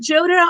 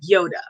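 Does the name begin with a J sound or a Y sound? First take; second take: J; Y. First: The name begins with a J sound. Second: The name begins with a Y sound. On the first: "Is it Joda" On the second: "or is it like Yoda?"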